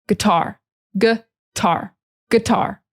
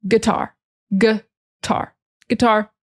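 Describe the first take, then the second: No difference in how they are said.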